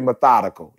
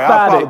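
First: The word is said in full, with its ending. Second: The word is clipped, dropping its last syllable. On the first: The speaker calls it right. "That's the first time you ever said that right" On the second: The speaker calls it wrong. "I should have said it wrong"

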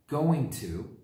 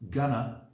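First: Both words are said in full. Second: The words are reduced and blended together.

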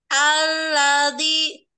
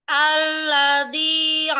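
The two takes are said the same way.

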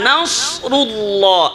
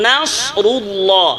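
No difference in how they are said.

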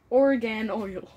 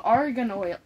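First: The first vowel sounds like 'or'. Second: The first vowel sounds like 'ar'. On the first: The speaker calls it wrong. "Why are you pronouncing the O like an A or the A like an O?" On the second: The speaker calls it right. "So, argan oil"

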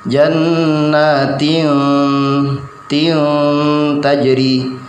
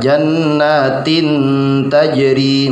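First: A loose, drawn-out nasal sound comes before the t. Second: The n goes straight into the t sound. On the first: The speaker calls it right. "lidahnya jangan langsung ditempelkan" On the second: The speaker calls it wrong. "jadi tidak jannatin tajri, mboten"

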